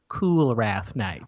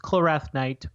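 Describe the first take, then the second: First: The first syllable sounds like 'cool'. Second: The first syllable sounds like 'coal'. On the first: "let's try to pronounce it Coolrath Knight" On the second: "I think it's Kolrath Knight"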